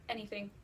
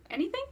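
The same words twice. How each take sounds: First: "Anything" said low and softer as a statement; low, sure "Anything."; confirming answer. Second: "Anything" asked high with a rising end; high, checking "Anything?"; questioning echo. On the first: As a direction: settle "Anything" down into a quiet confirmation. His answer in retold dialogue. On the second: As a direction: lift "Anything" up sharply into a question. Asks back in retold dialogue. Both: Retold or imitated.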